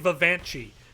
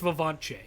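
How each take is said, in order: First: The stress is not on the second syllable. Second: The stress is on the second syllable. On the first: The speaker calls it wrong. "I keep wanting to say Vivanchi" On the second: The speaker calls it right. "the emphasis is on the second syllable"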